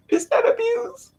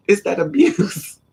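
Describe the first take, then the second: First: Hammed-up sobbing squeal, much higher; mock crying. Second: Said in the usual way. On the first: Echoing her friend's line in a mock-crying squeal. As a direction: wail it like a fake cry, pitched way up.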